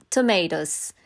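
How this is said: The word is said in an American accent. This is how people in the Philippines say it. "sa atin dyan sa Philippines is, we pronounce it ... yung accent natin is American accent"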